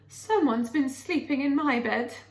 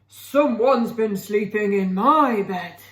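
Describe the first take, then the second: First: It is said in a medium, ordinary voice. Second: It is said in a deep, gruff voice.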